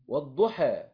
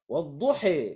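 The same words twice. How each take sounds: First: The final vowel leans slightly toward e. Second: The final vowel leans strongly toward e. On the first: "دي الإمالة التقليل" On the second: "ديت الإمالة"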